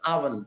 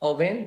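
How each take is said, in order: First: The first vowel sounds like 'ah'. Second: The first vowel sounds like 'oh'. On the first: This is how it is said in English. "ও না বলে আ বলতে হবে। আর ভ্যান না বলে ভান" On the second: This is how it is said in Bengali. "বাংলায় আবার ওভেন বলতে পারেন"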